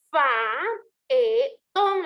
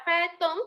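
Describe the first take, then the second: First: FAETÓN split slowly into fa, e, tón; faetón pulled apart at the hiatus, with pauses; syllables separated. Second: Said in the usual way. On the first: Shown as a demonstration. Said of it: "lo tendría que separar". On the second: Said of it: "tendría que llevar tres sílabas".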